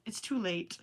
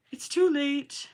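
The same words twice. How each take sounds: First: Said in the usual way. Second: It's too late said higher in a silly put-on voice. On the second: Shown as a demonstration. Vlogger, tired near midnight, repeats It's too late in a silly put-on voice. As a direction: play It's too late as a mock dramatic character.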